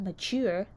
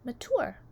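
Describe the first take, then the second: First: The ending rhymes with sewer. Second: The ending rhymes with door. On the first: The speaker calls it wrong. "Not mature, that rhymes with sewer" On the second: The speaker calls it right. "which rhymes with door"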